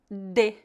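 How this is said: It is said in the Paraná style. "Em algumas cidades do Paraná, as pessoas pronunciam de"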